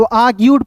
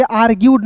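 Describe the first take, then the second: First: "आर्ग्यूड" said "aa-gyood", with the r dropped; "आर्ग्यूड" as a long aa, then gyood; correct reading demo. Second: "आर्ग्यूड" said "aar-gyood", with the r sounded; "आर्ग्यूड" with an audible r before gyood; wrong reading demo. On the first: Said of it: "तो आर्ग्यूड पढ़ेंगे". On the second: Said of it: "आर्ग्यूड नहीं पढ़िएगा". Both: Shown as a demonstration.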